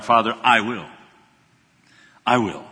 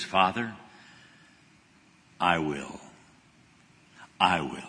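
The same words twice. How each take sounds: First: Said in the usual way. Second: Low, soft and slow "Father, I will"; Jesus at the close of his prayer, hushed and solemn. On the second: Retold or imitated. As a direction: lay it down quietly before God.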